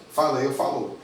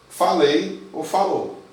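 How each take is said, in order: First: Said in the usual way. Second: Falei ou falou said slowly and a little louder; slow emphatic. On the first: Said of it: "quick repeat of translation". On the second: Shown as a demonstration. Teacher to students, slowly stressing falei ou falou. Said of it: "teacher repeats translation".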